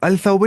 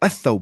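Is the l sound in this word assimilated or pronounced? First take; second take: pronounced; assimilated. First: The l sound is clearly pronounced. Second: The l sound merges into a doubled s. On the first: The speaker calls it wrong. "नहीं" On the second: The speaker calls it right. "लाम पढ़ना ही नहीं"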